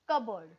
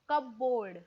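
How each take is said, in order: First: It is run together as kubberd. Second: It is split into cup and board. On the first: The speaker calls it right. "The correct pronunciation in the Indian accent is कबर्ड" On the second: The speaker calls it wrong. "जेव्हा आपण कप आणि बोर्डला break करतात ते कपबोर्ड असं होतं"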